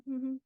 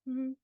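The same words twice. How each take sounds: The two takes are said the same way.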